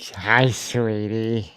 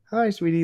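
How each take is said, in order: First: The greeting sounds creepy and suggestive. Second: The greeting sounds friendly and harmless. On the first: The greeting has an unsettling intent. "is it creepy" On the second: The greeting is meant to reassure a child. "or is it like"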